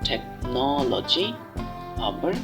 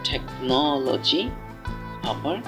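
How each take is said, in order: No difference in how they are said.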